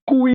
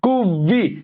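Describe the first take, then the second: First: The middle v sound is dropped entirely. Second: A clear v sound joins the two vowels. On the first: The speaker calls it wrong. "এটা কুই বলবেন না কেউ" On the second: The speaker calls it right. "ভি উপরের দাঁত নিচে ঠোঁটে লাগবে"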